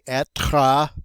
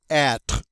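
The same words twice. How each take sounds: First: The final E is sounded at the end. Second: The final E is silent at the end. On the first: The speaker calls it wrong. "we don't pronounce that final E. We don't say être" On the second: The speaker calls it right. "We say être"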